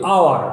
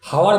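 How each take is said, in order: First: The word begins with a vowel, no h. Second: The word begins with an audible h sound. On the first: The speaker calls it right. "আমরা বলি আওয়ার" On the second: The speaker calls it wrong. "হাওয়ার বলি না"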